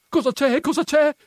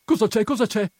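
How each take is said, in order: First: Very high, loud, insistent questioning; insistent repeated question. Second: High, raised-voice questioning; urgent question. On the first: Agnese grabbing Perpetua by the arm, loud insistent questioning. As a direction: press the question harder, pitch right up. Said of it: "ripeté Agnese, afferrandola per un braccio". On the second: Agnese holding Perpetua back by the skirt, urgent questioning. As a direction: ask it twice in quick alarm. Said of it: "disse Agnese". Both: A narrator's reading.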